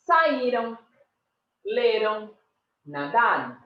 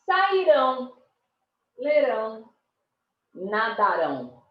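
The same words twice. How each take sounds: First: "saíram, leram, nadaram" with stress on the next-to-last syllable; past-tense stress. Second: "sairão, lerão, nadarão" with stress on the final ÃO; future-tense stress. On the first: Teacher showing past-tense pronunciation, penultimate stress. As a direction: lean on the Í, LE and DA, ending unstressed. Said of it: "Se é no passado". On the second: Teacher contrasting future forms, final-syllable stress. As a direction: punch the last syllable of each word. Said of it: "no futuro". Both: Shown as a demonstration.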